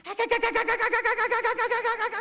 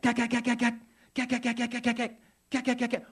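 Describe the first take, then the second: First: One long, unbroken imitated gun burst; very high, loud runaway gunfire noise; overexcited machine-gun fire. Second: Short, controlled imitated gun bursts; high staccato gun noise in measured bursts; machine-gun bursts. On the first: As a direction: rattle nonstop like a trigger held down. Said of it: "Floyd was a little bit excited". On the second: Shown as a demonstration. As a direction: rattle off rapid gunfire with pauses between bursts. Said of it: "it sounds sort of like this".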